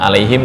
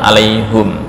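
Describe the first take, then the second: First: The vowel before the final m is i. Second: The vowel before the final m is u. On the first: This is the usual reading. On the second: This is an alternative transmitted reading.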